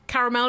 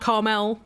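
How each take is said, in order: First: The word is said with three syllables. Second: The word is said with two syllables.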